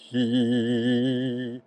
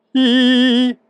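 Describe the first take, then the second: First: A low, relaxed hi. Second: A high, loud, tense i. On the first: Doctor shows a low tone on camera, low relaxed hi. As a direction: drop the pitch low and let the hi sit there. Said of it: "Om jag tar en låg ton". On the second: Doctor shows a high tone on camera, high tight i. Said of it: "Om jag tar en hög ton". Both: Shown as a demonstration.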